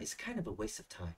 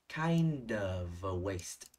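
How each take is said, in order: First: Said in the usual way. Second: "Kind of a waste" drawn out very slowly, d and v running into the next vowel; linked sounds. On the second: Shown as a demonstration. (đọc "Kind of a waste" thật chậm, nối âm d và v sang) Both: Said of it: "Nối âm đờ sang nhé".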